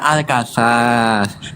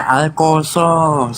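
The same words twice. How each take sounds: First: The vowels are said with an open 'a' sound. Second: The vowels are said with a rounded 'o' sound. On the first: This is how the name is written. "itu tulisannya Al-Qasas" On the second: This is how the name is read aloud. "dibaca Al-Qasas"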